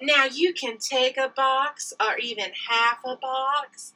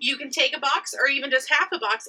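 First: It is said in a sexy, seductive voice. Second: It is said in a plain sales voice.

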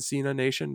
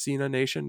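First: It is said as two separate words. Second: It is said as two separate words.

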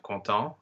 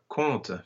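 First: The word ends in a nasal vowel. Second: The word ends in a schwa. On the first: Someone is happy. "it's the anasal that you're dealing with" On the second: People are telling or recounting something. "the ENT is pronounced schwa"

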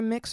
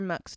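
First: The vowel is like the one in 'mix'. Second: The vowel is like the one in 'mux'. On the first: "It's either Mix or Mux" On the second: "depending on how you pronounce it"

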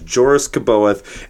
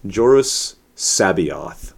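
First: The surname begins with a K sound. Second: The surname begins with an S sound. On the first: The speaker calls it wrong. "I know I'm saying it wrong" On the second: The speaker calls it right. "Zahn tells me that it's Joris Sabaoth"

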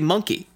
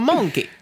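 First: The first vowel sounds like plain 'uh'. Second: The first vowel sounds like 'ow'. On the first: "If I was to say monkey, I would say monkey" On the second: "You're putting an AU. I'm going monkey"

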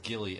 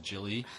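First: The name begins with a hard g sound. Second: The name begins with a j sound. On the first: The speaker calls it right. "he says Gilly as Jilly" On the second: The speaker calls it wrong. "he says Gilly as Jilly"

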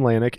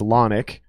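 First: The first syllable has a long a vowel. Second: The first syllable has a short a vowel. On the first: The speaker calls it wrong. "It is incorrect" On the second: The speaker calls it right. "Short A Nick"

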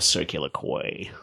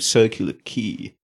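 First: The name is said with an American pronunciation. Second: The name is said with the local pronunciation.

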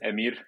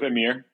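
First: The R at the end is rolled. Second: The R at the end is not rolled. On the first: "which is the right way to pronounce it" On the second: "for those that can't quite pronounce the R, I'll go with"

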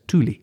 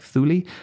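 First: The word begins with a hard T sound. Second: The word begins with a soft TH sound. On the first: This is the Danish pronunciation. "the Danish pronounce it with an initial hard T" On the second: This is the Greek and English pronunciation. "The Greek and the English pronounce it with a soft TH, that's why I'm saying Thule"

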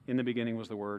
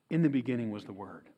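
First: It is read in a flat, plain way. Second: It is read in a lively, expressive way. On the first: The text feels ordinary and routine. "It didn't sound like" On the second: The text feels awesome and amazing. "It sounded a little bit more like"

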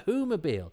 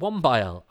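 First: The word is said with four syllables. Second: The word is said with two syllables. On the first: The speaker calls it right. "oh no, it's Whomobile" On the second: The speaker calls it wrong. "I used to think it was called the Wombile"

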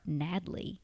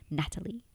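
First: The T sounds like a D, syllables run together. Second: The T is pronounced as a clear T. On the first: The speaker calls it wrong. "I've been saying my own name incorrectly" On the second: The speaker calls it right. "With a T"

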